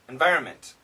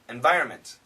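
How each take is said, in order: First: The N sound is dropped before the M. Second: The same.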